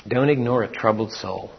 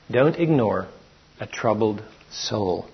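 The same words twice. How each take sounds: First: Don't lightly stressed, even pace. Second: Softer, slow repeat with a pause after ignore and weight on troubled; pausing, hushed repeat. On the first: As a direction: state it as a rule, leaning on Don't. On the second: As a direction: let it sink in, gently. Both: Shown as a demonstration.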